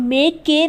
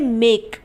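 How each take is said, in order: First: A vowel is sounded after the final k. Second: The word ends on the k sound. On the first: The speaker calls it wrong. "हम मेक के नहीं बोलते" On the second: The speaker calls it right. "हम बोलते हैं मेक"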